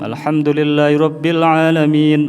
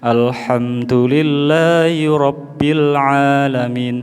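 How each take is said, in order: First: The recitation is delivered very quickly. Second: The recitation moves at a moderate pace. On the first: "Tadwir ini bacaan yang paling cepat" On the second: "Minimal seperti itu, okay? Jangan lebih lambat lagi"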